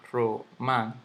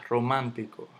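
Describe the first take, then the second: First: Romántico split as ro-mán-ti-co; syllable by syllable. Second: Said in the usual way. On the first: Shown as a demonstration. Teacher sounding out the word for students, separated syllables. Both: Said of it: "aquí lleva su tilde".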